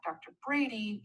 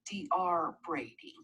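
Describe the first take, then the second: First: The title is said as the full word. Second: The title is spelled out letter by letter. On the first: The speaker calls it right. "we say doctor" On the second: The speaker calls it wrong. "We don't say D R Brady"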